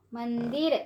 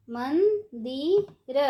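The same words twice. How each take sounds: First: Said in the usual way. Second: मंदिर stretched slowly, syllable by syllable; slow syllable drill. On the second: Shown as a demonstration. Teacher drawing out मंदिर slowly for children. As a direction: draw out मंदिर for the class. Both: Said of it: "ऊंची आवाज़ में कैसे पढ़ेंगे".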